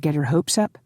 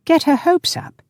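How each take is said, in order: First: Said in the usual way. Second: Very high incredulous echo; incredulous squawk, pitched right up; gasped disbelief. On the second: A narrator's reading. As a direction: throw it back, astonished. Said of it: "he gasped".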